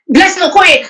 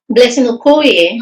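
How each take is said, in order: First: The name is said quickly and hurriedly. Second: The name is said slowly and calmly. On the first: The speaker seems to want to hurry through the interview. The speaker calls it wrong. "I was ready to dish out" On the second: The speaker seems to know what they are talking about. The speaker calls it right. "when you're relaxed"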